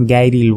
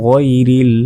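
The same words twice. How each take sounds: First: গাইরিল with a hard g and thin 'gai'; গাইরিল light, no throaty ghayn; mispronunciation demo. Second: গইরিল with heavy throaty 'ghoi'; গইরিল rounded and drawn out, Arabic ghayn; correct ghayn demo. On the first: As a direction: say গাইরিল with an everyday g. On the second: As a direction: voice the first sound of গইরিল back in the throat. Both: Shown as a demonstration. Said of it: "এটা কিন্তু ভুল".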